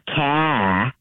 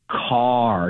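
First: It is said with an R-dropping Boston accent. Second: The final R is clearly pronounced.

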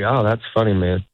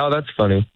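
First: It is said slowly. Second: It is said quickly.

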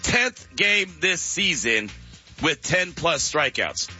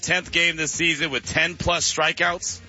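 First: It is said slowly and deliberately. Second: It is said at normal speed.

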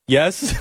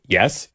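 First: It is a meek, submissive yes. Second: It is a plain, matter-of-fact yes.

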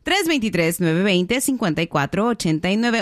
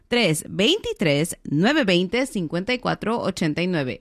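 First: The number is read at normal speed. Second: The number is read more slowly.

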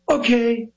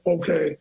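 First: It is said with a theatrical pop. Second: It is said flatly, without oomph.

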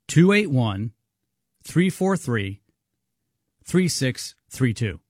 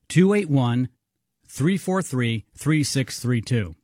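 First: The number is read more slowly. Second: The number is read at normal speed.

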